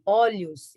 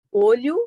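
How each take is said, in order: First: "olhos" with the stressed O opened wide; open vowel. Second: Closed O in olho; "olho" with the stressed O rounded and closed; closed vowel. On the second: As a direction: say "olho" slowly with a closed first O. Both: Shown as a demonstration. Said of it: "Eu mudo o timbre".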